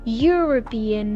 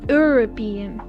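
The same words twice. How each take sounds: First: The word begins with a Y sound. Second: The word begins with a plain vowel sound. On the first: The speaker calls it right. "it sounds like if we have like a Y" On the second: The speaker calls it wrong. "not U"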